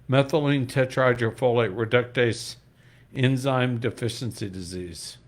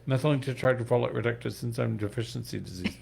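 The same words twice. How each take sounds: First: It is said at normal speed. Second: It is said very fast.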